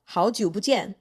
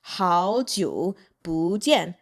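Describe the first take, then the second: First: Said in the usual way. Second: "Hao jiu bu jian" very slowly, in pieces; slow demonstration. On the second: Shown as a demonstration. Teacher showing how to say long time no see, slow "Hao jiu bu jian". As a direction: separate "Hao jiu", then "bu jian", drawn out.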